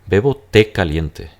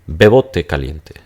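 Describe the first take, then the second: First: The stress is on té. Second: The stress is on bebo.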